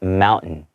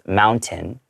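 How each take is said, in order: First: The middle T sound is dropped. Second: The middle T sound is pronounced. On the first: "whenever there's like a hard T sound in the middle of a word, then we tend not to pronounce it" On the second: "No one's going to think you're strange"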